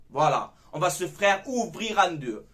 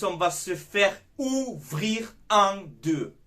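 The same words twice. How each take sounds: First: Said in the usual way. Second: Slow, heavy warning. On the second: Shown as a demonstration. Fan warning his viewers, slow and heavy. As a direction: drag every word out slowly. Fan warns about weak defense.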